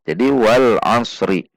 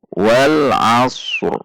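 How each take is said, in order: First: The word ends with a vowel after r. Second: The word ends on a bare r sound. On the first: The speaker calls it wrong. "Kesalahan yang sering terjadi ... dengan membaca huruf ro" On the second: The speaker calls it right. "Padahal ini jika wakaf ini harus sukun"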